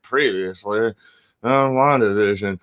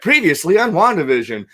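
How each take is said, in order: First: It is said in a tired, burnt-out tone. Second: It is said in a happy, enthusiastic tone.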